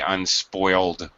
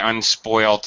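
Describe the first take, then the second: First: The word ends with a d sound. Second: The word ends with a t sound. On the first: This is the American form. "Americans say unspoiled with a D" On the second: This is the British form. "British say unspoilt"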